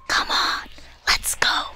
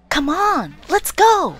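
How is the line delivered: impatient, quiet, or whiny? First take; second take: quiet; impatient. First: It is said softly, in a hushed voice. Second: It is said sharply, with an impatient edge. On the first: "sotto voce"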